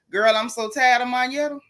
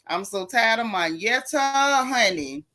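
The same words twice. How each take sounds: First: Said in the usual way. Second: "Monyetta" stretched out slowly for emphasis; drawn-out exasperation. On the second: Real, not acted. Host vents to viewers about Monyetta, "Monyetta" slowly drawn out. Repeats complaint, drawing it out.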